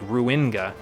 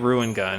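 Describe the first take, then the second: First: The middle syllable is emphasized. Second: The middle syllable is not emphasized. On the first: "put the the emphasis on the in part" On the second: "sometimes I'll just say Ruin Gun"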